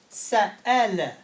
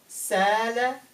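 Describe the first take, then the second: First: A glottal catch splits the middle of the word. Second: The middle vowel flows smoothly without any break. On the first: "now I have to pronounce this letter" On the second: "this was the original word"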